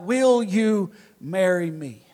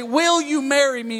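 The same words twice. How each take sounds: First: Slow, drawn-out proposal in a lower voice; halting, with each word drawn out; struggling to get out. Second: Higher-pitched, flowing proposal; acted proposal. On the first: Retold or imitated. Suitor finally getting the proposal out to his girlfriend, haltingly. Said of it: "I finally got the words out". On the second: Hypothetical suitor on one knee, asking in a raised voice. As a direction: pose it smoothly, pitched up. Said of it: "you drop down on one knee and you say".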